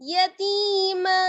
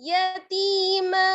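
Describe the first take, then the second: No difference in how they are said.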